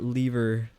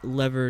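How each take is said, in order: First: It is said with a non-American pronunciation. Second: It is said with an American pronunciation. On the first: "not lever" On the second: "I now consume too much American content. I now say lever"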